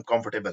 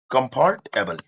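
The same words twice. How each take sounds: First: Said in the usual way. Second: कंफर्टेबल split as com-FORT, able, with a full "ar" vowel; syllable-by-syllable. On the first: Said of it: "बोलते नहीं कि हम". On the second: Shown as a demonstration. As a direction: sound out कंफर्टेबल in its two parts. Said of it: "बोलते नहीं कि हम कंफर्टेबल है".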